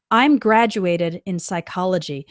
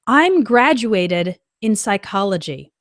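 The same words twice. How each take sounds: First: Said in the usual way. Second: The wrong sentence read slowly; slow example read. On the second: Shown as a demonstration. Teacher reading a learner's wrong sentence, slow and clear. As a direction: read it out plainly and slowly for the class. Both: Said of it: "more natural way to make this sentence".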